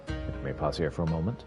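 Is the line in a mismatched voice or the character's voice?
character's voice. It is read in the character's own voice. The speaker calls it right.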